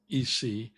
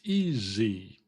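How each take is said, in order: First: The middle consonant is a hissing S sound. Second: The middle consonant is a buzzing Z sound. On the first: The speaker calls it wrong. "it's not E C" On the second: The speaker calls it right. "it's E Z"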